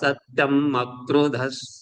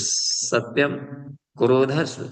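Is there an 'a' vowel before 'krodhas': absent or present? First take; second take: present; absent. First: An 'a' sound joins 'satyam' to 'krodhas'. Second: 'Krodhas' follows 'satyam' with no 'a' sound. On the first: It means freedom from anger. The speaker calls it right. "म में अ है तो मक्रोधस पढ़ेंगे इसको" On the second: It sounds like it names anger itself. The speaker calls it wrong. "नहीं तो सत्यम, क्रोधस, क्रोध सब फिर आ जाए उच्चारण में"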